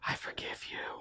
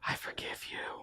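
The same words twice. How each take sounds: First: It is said in a whisper. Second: The same.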